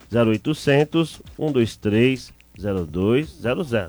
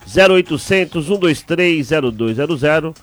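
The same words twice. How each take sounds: First: It is said more slowly. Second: It is said at normal speed.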